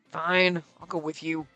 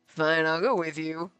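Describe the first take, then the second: First: It is said in an annoyed tone. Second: It is said in a tone without annoyance. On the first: The speaker is reluctant to go. The speaker calls it wrong. "he sounded annoyed the way I read it" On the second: The speaker is willing to go. The speaker calls it right. "the look on his face was like"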